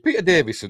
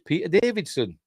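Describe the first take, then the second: First: The name has no d sound before the s. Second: The name has a d sound before the s. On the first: The speaker calls it right. "It's Davison" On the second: The speaker calls it wrong. "I thought it was Davidson"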